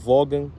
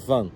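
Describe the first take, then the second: First: A hard g sound is heard mid-word. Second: No g sound is heard mid-word. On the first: It is read straight from the spelling. The speaker calls it wrong. "se só lê fala Vogan, mas não é" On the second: It is said the way locals say it. The speaker calls it right. "é Van"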